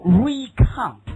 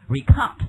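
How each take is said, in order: First: First syllable of "recount" stressed high. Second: Weight on the end of "recount"; stress on COUNT. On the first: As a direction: recount with a loud, drawn-out REE at the start. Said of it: "这个re要重读". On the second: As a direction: recount with the stress on the second syllable. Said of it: "重点在后面". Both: Shown as a demonstration.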